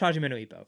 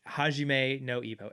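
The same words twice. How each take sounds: First: It is said very fast. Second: It is said more slowly.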